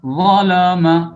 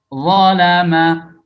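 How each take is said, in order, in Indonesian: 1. Bunyi L-nya tebal dan berat. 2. Bunyi L-nya tipis dan ringan. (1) "Jangan zalama" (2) "la tipis"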